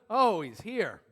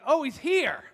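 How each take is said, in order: First: It sounds disappointed and dreading. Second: It sounds glad and welcoming.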